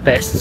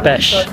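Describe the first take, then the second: First: The final sound is a plain s. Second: The final sound is an sh. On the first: The speaker calls it wrong. "not Pest" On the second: The speaker calls it right. "sorry, Pest"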